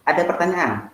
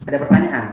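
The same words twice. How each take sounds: First: Said in the usual way. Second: Louder repeated question. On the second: Real, not acted. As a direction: ask again louder to the class. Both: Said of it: "Kalau nggak ada, nih Bapak yang nanya".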